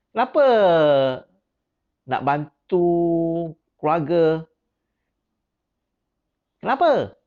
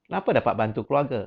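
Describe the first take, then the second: First: "Kenapa" shot up much higher and louder, then "nak bantu keluarga?" stays high and loud; high, loud, pressing "Kenapa nak bantu keluarga?"; raised intonation. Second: "Kenapa dapat bantu keluarga?" asked quick, with the pitch dropped down; fast, falling "Kenapa dapat bantu keluarga?"; lowered intonation. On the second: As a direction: let the tune sink as you rush "Kenapa dapat bantu keluarga?". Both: Shown as a demonstration. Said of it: "Saya punya intonasi dah, dah menurun sikit".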